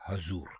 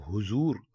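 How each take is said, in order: First: The first vowel is an 'a' sound. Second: The first vowel is a 'u' sound. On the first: The speaker calls it right. "दुरुस्त लफ्ज है हजूर" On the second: The speaker calls it wrong. "हे के ऊपर पेश डाल देंगे ... तो ये गलत है"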